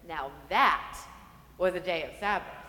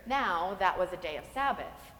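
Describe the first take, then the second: First: It is said as an impressed exclamation, stressing 'that'. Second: It is said as a plain, matter-of-fact statement.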